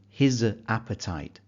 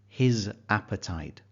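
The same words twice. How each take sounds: No difference in how they are said.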